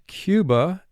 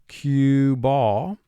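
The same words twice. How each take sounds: First: The word is said at a normal, natural pace. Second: The word is said slowly with exaggerated articulation.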